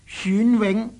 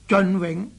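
First: The first syllable sounds like 选. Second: The first syllable sounds like 尽. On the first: The speaker calls it right. "应该读做选字" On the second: The speaker calls it wrong. "就不能读做尽永"

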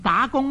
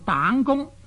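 First: The first syllable is pronounced da. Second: The first syllable is pronounced dong. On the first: This is the usual reading. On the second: This is a regional reading.

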